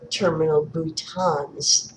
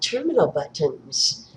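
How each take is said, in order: First: The second word has a French pronunciation. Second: The second word has an English pronunciation.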